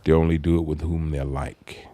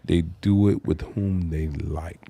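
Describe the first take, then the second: First: It is said at normal speed. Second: It is said slowly.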